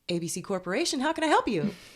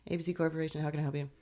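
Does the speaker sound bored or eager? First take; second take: eager; bored. First: It sounds eager and bright. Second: It sounds bored and weary. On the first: The person is new to the job. "this is me taking a phone call at, when I first started a job" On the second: The person has worked there a long time. "this is me, like, towards the end of my, my time there"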